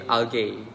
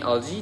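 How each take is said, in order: First: It is said with a Singaporean English pronunciation. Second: It is said with a standard English pronunciation. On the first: "they say algae" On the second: "Instead of saying algae"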